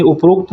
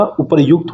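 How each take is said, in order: First: "उपरोक्त" said up-rokt, with an o; wrong form demonstrated. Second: "उपरयुक्त" said upar-yukt; correct form demonstrated. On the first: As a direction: say "उपरोक्त" merged, without any yu. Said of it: "उपरोक्त नहीं होता". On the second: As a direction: say "उपरयुक्त" with yu in place of o. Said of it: "उपरयुक्त होता है". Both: Shown as a demonstration.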